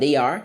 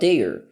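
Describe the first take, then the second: First: Two separate full words are said. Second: The words merge into one short syllable. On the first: "em vez de falar they are" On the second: "eu falo they're"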